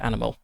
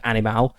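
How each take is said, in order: First: The word is pronounced the English way. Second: The word is pronounced the Latin way. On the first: It is the ordinary English word. "not the English word animal" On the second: It is the Latin word, not the English one. "this is the Latin word animal"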